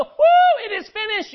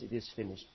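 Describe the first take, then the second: First: High, whooping celebration; mock triumph. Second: Very low, hushed defeat; awful finality. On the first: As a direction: cheer it out in a high, loud whoop. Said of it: "he doesn't go". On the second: Acted. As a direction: let it sink, soft and low. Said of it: "how awful were those words".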